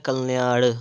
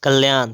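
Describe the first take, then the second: First: कल्याण ending in retroflex ṇ; correct pronunciation. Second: कल्याण ending in dental n; wrong pronunciation. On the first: Teacher correcting, कल्याण with flapped ṇ. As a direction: flick the tongue back to end कल्याण. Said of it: "क्या होता है". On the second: Teacher showing the error, कल्याण with dental n. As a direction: end कल्याण on a plain n. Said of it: "कल्याण नहीं होता है". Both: Shown as a demonstration.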